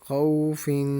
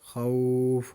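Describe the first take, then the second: First: The word ends with an added nasal 'in' sound. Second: The word ends abruptly without the 'in' sound. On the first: The reading continues without stopping. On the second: The reader stops on this word.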